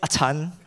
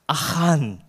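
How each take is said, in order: First: The name is said with a Cantonese pronunciation. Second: The name is said with a Hebrew pronunciation. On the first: "Cantonese will say Achan" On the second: "the right Hebrew pronunciation is Achan"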